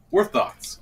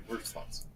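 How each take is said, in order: First: Said in the usual way. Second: Breathy stage whisper. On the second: Pretend. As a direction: whisper it like a secret. Whispered then said aloud.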